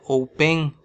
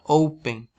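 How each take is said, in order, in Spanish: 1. El acento está en la segunda sílaba. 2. El acento está en la primera sílaba. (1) "no se pronuncia open" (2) "se pronuncia open"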